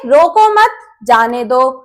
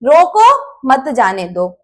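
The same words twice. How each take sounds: First: The pause comes after the word 'mat'. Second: The pause comes after the word 'roko'. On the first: Do not stop the person; let them go. "पहले वाक्य में जाने वाले को रोको मत, उसे जाने दो" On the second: Stop the person; do not let them go. "दूसरे वाक्य में जाने वालों को रोको, उसे मत जाने दो"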